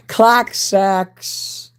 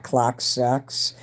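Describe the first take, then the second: First: Shouted out high and loud; loud catchphrase. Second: Said in the usual way. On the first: Shown as a demonstration. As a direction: belt it like a catchphrase.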